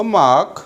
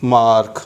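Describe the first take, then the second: First: Mark, long vowel straight into K; British pronunciation. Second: Mark, clear R before the K; American pronunciation. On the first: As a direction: mark with silent R, "maak". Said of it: "silent is R". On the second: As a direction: mark with the R pronounced. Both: Shown as a demonstration.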